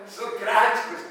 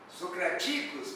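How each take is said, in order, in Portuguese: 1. A sílaba tônica é a antepenúltima. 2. A sílaba tônica é a penúltima. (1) "proparoxítona" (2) "paroxítona"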